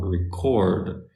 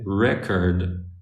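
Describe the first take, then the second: First: The stress is on the second syllable. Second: The stress is on the first syllable. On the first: It is a verb, meaning to capture something. "The stress is on the O" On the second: It is a noun, meaning an object. "if the stress is on the e"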